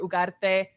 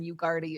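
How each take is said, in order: First: The name is said with a Mexican Spanish pronunciation. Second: The name is said with an American English pronunciation. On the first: "is the the Mexican way" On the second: "is the American way"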